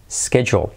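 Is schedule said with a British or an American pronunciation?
American. It is said with an American pronunciation. "pero es también schedule"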